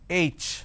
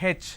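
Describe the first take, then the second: First: The letter is said the standard way. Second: The letter is said the South Indian way. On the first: The speaker calls it right. "It's pronounced as H" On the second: The speaker calls it wrong. "in southern part of India, everybody pronounces this letter as H. They say H"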